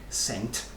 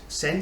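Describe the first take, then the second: First: The word ends with a clear t sound. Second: The word ends without a t sound. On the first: The speaker calls it right. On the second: The speaker calls it wrong.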